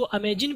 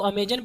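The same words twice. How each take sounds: First: अमेजिन with an i in the last syllable; अमेजिन ending "-jin", not "-jan"; own pronunciation. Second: अमेजन with an a in the last syllable; अमेजन ending "-jan", not "-jin"; others' pronunciation. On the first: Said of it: "हम लोग इसको अमेजिन पढ़ते हैं". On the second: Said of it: "कुछ लोग इसको अमेजन पढ़ देते हैं". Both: Shown as a demonstration.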